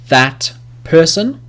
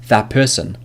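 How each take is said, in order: First: Each word is said separately and fully. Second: The words run together, the first ending assimilated. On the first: The speaker calls it wrong. "individually, ... but we don't speak like that" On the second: The speaker calls it right. "Instead, we'll say"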